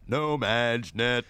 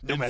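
First: It is said in a grand announcer voice. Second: It is said in a plain, ordinary voice. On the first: The speaker calls it right. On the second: The speaker calls it wrong.

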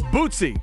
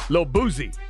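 First: The name is said with a t sound. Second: The name is said with a z sound. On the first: The speaker calls it right. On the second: The speaker calls it wrong.

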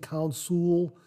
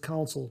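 First: The stress is on the second syllable. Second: The stress is on the first syllable. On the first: The speaker calls it wrong. "I was emphasizing the S-U-L" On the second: The speaker calls it right. "My apologies, it's Council"

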